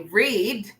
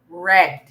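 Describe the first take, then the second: First: It sounds like the present-tense verb read. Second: It sounds like the past-tense verb read. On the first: The speaker calls it wrong. "we don't say read" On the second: The speaker calls it right. "we say read"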